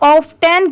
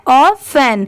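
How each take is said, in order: First: The T sound is clearly pronounced. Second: The T sound is left out. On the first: "इसे हम ऑफ टेन क्यों नहीं पढ़ेंगे" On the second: "टी की sound ट की नहीं आ रही है"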